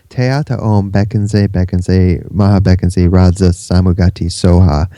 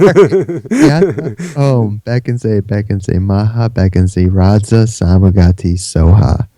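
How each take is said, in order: First: The mantra is recited at a quicker pace. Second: The mantra is recited at a slower pace.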